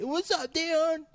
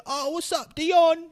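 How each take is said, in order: First: High hammed-up fake Kiwi "What's up, Dion?"; worst fake Kiwi accent. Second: Squeaky, much higher, louder fake Kiwi accent; mocking people who greet him in a fake accent; mock bad Kiwi accent. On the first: Repeating the worst accent people greet Dion with, high and hammed-up. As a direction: ape the worst put-on accent. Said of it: "They'll put on the worst accent". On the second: People greeting Dion in a high, hammed-up fake Kiwi accent. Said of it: "They try to sound like me".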